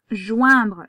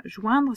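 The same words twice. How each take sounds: First: "Joindre" said loud and clear after a throat clear; announcing the word. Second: Said in the usual way. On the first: Shown as a demonstration. Teacher announcing the next dictation word loudly. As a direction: present the new word to the class. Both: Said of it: "On continue".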